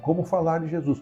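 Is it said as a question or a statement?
statement. It is said as a statement.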